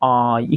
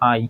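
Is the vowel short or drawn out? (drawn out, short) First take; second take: drawn out; short. First: The vowel is drawn out and light. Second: The vowel is short and clipped. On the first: "একটু লম্বা করে হালকা" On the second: "আমরা সাধারণত এটাকে বলে আই"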